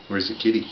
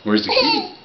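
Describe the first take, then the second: First: Said in the usual way. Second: Sing-song question. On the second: Shown as a demonstration.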